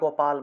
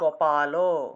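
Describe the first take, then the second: First: The word ends with a consonant sound. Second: The word ends with a final vowel sound. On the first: It is the everyday Bengali pronunciation. The speaker calls it wrong. "বাংলায় তো আমরা গোপাল বলে ফেলি" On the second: It is the Sanskrit pronunciation. The speaker calls it right. "সংস্কৃতে উচ্চারণ করলে গোপালও"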